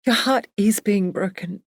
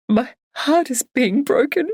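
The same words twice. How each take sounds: First: Slightly higher, calm, stress on "Your"; gently tearful. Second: Higher and slow with stress on "heart"; "heart" lifted and stretched through tears; sobbing. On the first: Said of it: "Emily's gentle crying". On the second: Barbara crying to her friend, "heart is being broken" slow and tearful. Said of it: "stronger bout of sobbing". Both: Acted.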